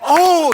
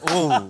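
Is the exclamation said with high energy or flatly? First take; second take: high energy; flatly. First: It is said loudly with high energy. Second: It is said flatly with little energy.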